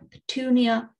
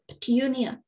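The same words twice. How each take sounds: First: No y sound comes before the oo vowel. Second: A y sound comes before the oo vowel.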